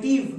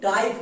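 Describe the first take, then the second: First: The vowel sounds like short 'ih'. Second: The vowel sounds like 'eye'. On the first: The speaker calls it right. "এর জন্য হয় টিভ" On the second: The speaker calls it wrong. "টাইপ কিন্তু হবে না"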